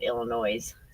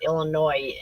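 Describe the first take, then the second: First: The ending sounds like the word 'noise'. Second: The ending does not sound like 'noise'. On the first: The speaker calls it wrong. "I think you said Illinois" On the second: The speaker calls it right. "it's Illinois"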